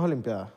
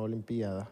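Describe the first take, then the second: First: "olimpiadas" as olim-PYA-das; "olimpiadas" with -pia- run into one syllable; preferred diphthong form. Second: Soft "olimpiada" as o-lim-PÍ-a-da; "olimpiada" with PÍ and A split; rejected hiatus form. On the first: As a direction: stress the A in "olimpiadas". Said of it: "Me gusta más olimpiadas". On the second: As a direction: stress the I in "olimpiada", said low and quiet. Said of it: "No olimpiada". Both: Shown as a demonstration.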